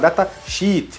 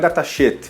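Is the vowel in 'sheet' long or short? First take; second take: long; short. First: The vowel in 'sheet' is a long ee. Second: The vowel in 'sheet' is a short i. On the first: It means a sheet of data. The speaker calls it right. "chama datasheet" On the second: It sounds like calling the data crap. The speaker calls it wrong. "não é datasheet"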